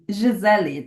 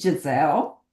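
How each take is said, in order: First: The name is pronounced the Portuguese way. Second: The name is pronounced the English way. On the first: "That's how I pronounce in Portuguese" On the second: "you can say Giselle"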